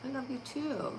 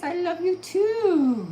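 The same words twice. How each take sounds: First: Said in the usual way. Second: High, slow, stretched dog voice; voicing the dog. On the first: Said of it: "Aw, thank you". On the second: Owner voices her dog telling viewers love, high and slow. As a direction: speak for the pup, drawn out and high.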